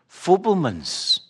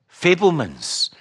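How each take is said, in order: First: "Fabelmans" with a short oo vowel, slow, Scottish; "Fabelmans" said Scots-style, FOO-bel-mans; Scottish pronunciation. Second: "Fabelmans" said FAY-bel-mans, careful; "Fabelmans" with a clear long A, FAY-bel-mans; corrected pronunciation. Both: Shown as a demonstration. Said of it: "That's my Scottish accent distorting the word".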